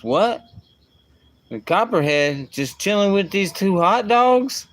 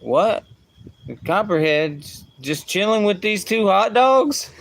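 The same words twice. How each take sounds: First: Put-on kid's amazed question, pitched higher and louder; lightly voiced little boy, amazed; imitating his young son. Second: Put-on much higher, louder kid voice, near squeal; hammed-up little boy in amazed disbelief; imitating his young son. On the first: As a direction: retell the boy's delighted disbelief. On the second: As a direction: replay the boy's line even more amused and childlike. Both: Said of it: "he goes".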